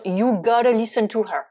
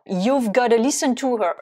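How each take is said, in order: First: "you gotta" with no V sound; clipped-down "you gotta", V left out; shorter contraction. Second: "You've" keeps its V before "gotta"; "You've gotta" with the 've kept; contracted you've gotta. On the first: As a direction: drop the 've before "gotta". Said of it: "faire encore plus court". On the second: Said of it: "on n'a même pas apostrophe V E". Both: Shown as a demonstration.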